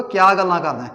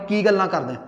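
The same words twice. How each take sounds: First: Puadhi tonal lilt on ਕਿਆ ਗੱਲਾਂ ਕਰਦਾ ਹੈ, ਕਿਆ stressed. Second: Said in the usual way. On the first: Shown as a demonstration. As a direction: sing the tone of ਕਿਆ in Puadhi style. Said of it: "ਸੁਰ ਆ ਗਿਆ". (ਕਿਆ ਉੱਤੇ ਸੁਰ ਵਾਲਾ Puadhi ਲਹਿਜਾ) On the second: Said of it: "ਜਿਵੇਂ ਮੈਂ ਕਹੂੰਗਾ".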